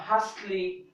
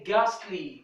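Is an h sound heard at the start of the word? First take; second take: yes; no. First: An h sound is heard at the start. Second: No h sound is heard at the start. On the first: The speaker calls it wrong. "I'm not going to say" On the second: The speaker calls it right. "we are going to say"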